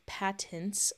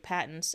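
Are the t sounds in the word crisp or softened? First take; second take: crisp; softened. First: Both t sounds are pronounced crisply and clearly. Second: The t sounds are softened or swallowed. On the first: "there's two T's" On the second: "I always say patents"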